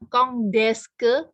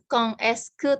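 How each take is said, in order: First: The final consonant links as a D sound. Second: The final consonant of quand is silent. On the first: "bukan kong deske" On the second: "bukan kong eske"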